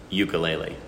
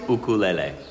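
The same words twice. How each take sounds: First: It is said the mainland way, starting with 'yoo'. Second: It is said the Hawaiian way, starting with 'oo'.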